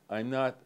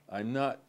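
No difference in how they are said.

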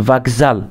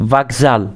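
The two takes are said the same way.

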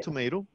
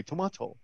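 First: "tomato" with a long AY in the middle; American tomato. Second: "tomato" with a broad AH in the middle; British-style tomato. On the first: Teacher quoting a saying, American-style "tomato". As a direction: say "tomato" as tuh-MAY-toh. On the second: Teacher countering in the saying, British-style "tomato". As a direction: say "tomato" as tuh-MAH-toh. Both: Shown as a demonstration. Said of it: "you remember this saying that we say".

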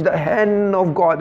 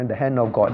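First: "hand" stretched out long and slow in preacher style; imitated preaching. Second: Said in the usual way. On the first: Teacher imitates preachers talking of God's hand, emphatic. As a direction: preach it, drawing out "hand" with weight. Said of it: "Then they preach". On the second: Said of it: "they say".

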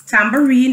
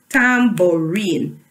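First: Said in the usual way. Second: "Tambourine" slowly as tam, bou, rine; broken into syllables. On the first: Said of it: "is a three-syllable word". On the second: Shown as a demonstration. Teacher leading the class through the word, "Tambourine" syllable by syllable. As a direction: give each syllable of "Tambourine" its own beat. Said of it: "break it up into syllables".

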